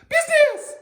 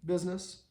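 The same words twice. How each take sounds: First: The word is said loudly and excitedly. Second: The word is said in a calm conversational tone. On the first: The speaker calls it wrong. "normally when a dog starts to pee or poop, we go" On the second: The speaker calls it right. "say it in a normal conversational tone of voice"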